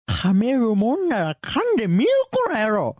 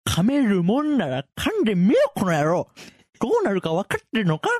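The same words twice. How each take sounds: First: Loud, high, hammed-up taunt; angry threat. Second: Loud, high, menacing taunt; angry threat. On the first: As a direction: overdo the menace. Acted threat retake, overdone. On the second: Acted. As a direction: dare him, furious. Acted threat, take one.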